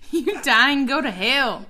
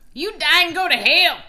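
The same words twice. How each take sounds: First: It is said in a plain everyday voice. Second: It is said in a put-on hillbilly accent.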